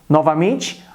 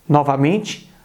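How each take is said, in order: The two takes are said the same way.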